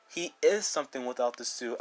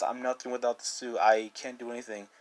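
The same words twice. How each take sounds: First: "is" leaned on firmly; stress on is. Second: Said in the usual way. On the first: Real, not acted. Answering Peter's "nothing" with a firm "is". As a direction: push "is" to contradict him.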